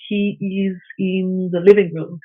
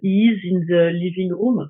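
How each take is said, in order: First: It is said without a French accent. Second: It is said with a French accent.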